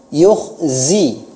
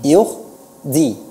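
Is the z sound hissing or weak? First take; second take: hissing; weak. First: The z has a strong hissing sound. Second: The z has no hissing sound. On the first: The speaker calls it right. "dia memiliki sofir" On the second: The speaker calls it wrong. "Tidak ada sofirnya"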